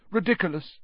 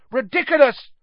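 First: Easy, unforced incantation; almost lazy. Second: High, loud, forceful incantation; shout. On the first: Professor casually dispatching the boggart, almost lazily. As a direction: toss the spell off without effort. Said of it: "almost lazily". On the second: Determined pupil charging at the boggart, shouted. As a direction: shout the spell with full force. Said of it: "he shouted". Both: A narrator's reading.

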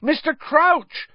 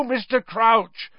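First: High, slow, loud shout; frantic yell at a teacher. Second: High, slow, urgent calling; urgent cry of a name; urgent plea. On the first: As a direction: shout the name in frustration. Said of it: "Harry shouted". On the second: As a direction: call his name in alarm. Harry urgently calls for help. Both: Acted.

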